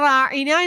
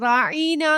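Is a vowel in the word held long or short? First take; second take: short; long. First: The vowels are said at normal, short length. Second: A vowel is stretched out and held longer. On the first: Please pay attention to us. "റായിന എന്ന് പറയണതിന് പകരം" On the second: It calls the listener deaf or a fool. "കുറച്ചൊന്ന് നീട്ടിയിട്ട്"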